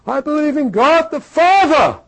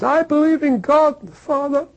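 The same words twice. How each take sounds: First: It is said loudly and firmly. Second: It is said softly and tearfully.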